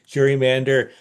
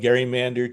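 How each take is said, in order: First: The word begins with a soft J sound. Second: The word begins with a hard G sound. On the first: This is the common anglicized form. "anglicized to be gerrymander" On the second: This follows how the original namesake said his name. "I simply call it gerrymander to be true to Elbridge"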